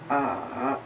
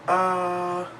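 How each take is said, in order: First: The pitch goes down and then up. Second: The pitch stays high and level. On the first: "a falling rising tone, where it goes down and then up" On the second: "a high-pitched flat tone"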